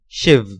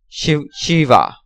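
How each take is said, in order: First: The word ends on a consonant, no final vowel. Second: The word ends with a pronounced final vowel. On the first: "Hindi pronunciation" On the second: "Foreigner's pronunciation"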